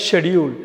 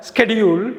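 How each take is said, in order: First: ஷெடியூல் slowly with 'sh'; no k, start ஷெடியூல் on 'sh'; British pronunciation. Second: ஸ்கெடியூல் slowly with hard 'sk'; American pronunciation. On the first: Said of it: "யூ கேல". (ஷெடியூல் - British 'ஷ' உச்சரிப்பு) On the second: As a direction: sound the k in ஸ்கெடியூல். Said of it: "அமெரிக்கால". (ஸ்கெடியூல் - அமெரிக்க 'ஸ்க' உச்சரிப்பு) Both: Shown as a demonstration.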